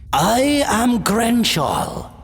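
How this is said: The voice sounds kind, loving and wise.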